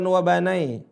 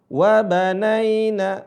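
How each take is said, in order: First: The ya sukun glides toward an e sound. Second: The ya sukun glides toward an i sound. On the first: The speaker calls it wrong. "bukan wa banai" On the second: The speaker calls it right. "mengarah ke huruf i bukan ke e"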